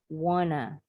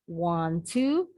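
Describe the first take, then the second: First: The words are blended into one reduced word. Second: Both words are said fully and separately.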